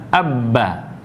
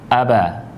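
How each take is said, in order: First: The b sound is held long and pressed. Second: The b sound is short and light. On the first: "Kalau bertasdid dibaca abba" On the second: "Kalau tanpa tasdid dibaca aba"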